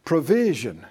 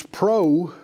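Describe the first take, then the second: First: Said in the usual way. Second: "provision" broken as PRO, pause, VISION; split into parts. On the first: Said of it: "think about the word provision". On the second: Shown as a demonstration. Preacher breaks down the word for class, "provision" split as pro-vision. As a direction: pull "provision" apart into "pro" and "vision" with a clear gap. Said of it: "if you think about the word provision".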